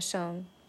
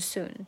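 First: The vowel leans toward an 'oh' sound. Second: The vowel is a plain 'oo' sound. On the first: The speaker calls it right. "有一点偏soon 的感觉own" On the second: The speaker calls it wrong. "还不是soon"

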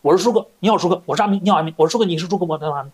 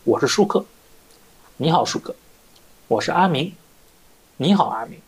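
First: It is said very fast. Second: It is said slowly.

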